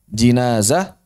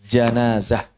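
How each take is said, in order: First: The first vowel is an 'i' sound. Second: The first vowel is an 'a' sound. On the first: "Bisa dibaca jinazah" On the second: "bisa dibaca janazah"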